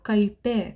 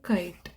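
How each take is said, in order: First: The word ends with an added 'e' vowel. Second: The word ends on a bare 't' sound. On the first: The speaker calls it wrong. "ಆ ಥರ ಆಗಲ್ಲ" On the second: The speaker calls it right. "ಬರೀ ಇಷ್ಟು ಮಾತ್ರ ನಾವು ಉಚ್ಚಾರಣೆ ಮಾಡೋದು"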